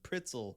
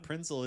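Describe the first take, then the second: First: The word is said without an n sound. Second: The word is said with an n sound. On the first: The speaker calls it right. "it's Pritzel" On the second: The speaker calls it wrong. "it's not Prinzel"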